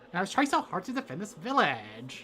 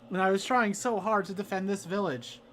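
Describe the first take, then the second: First: It is said in a Valley Girl voice. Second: It is said in a different character voice.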